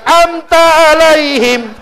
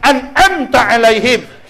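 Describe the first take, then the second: First: The first syllable 'an' is left out. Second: The first syllable 'an' is fully pronounced. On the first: The speaker calls it wrong. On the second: The speaker calls it right.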